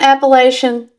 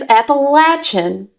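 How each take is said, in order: First: The word begins unlike the name Appalachee. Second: The word begins like the name Appalachee. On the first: The speaker calls it wrong. "you're wrong" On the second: The speaker calls it right. "because of the Appalachee tribe that lived there"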